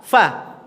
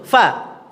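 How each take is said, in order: No difference in how they are said.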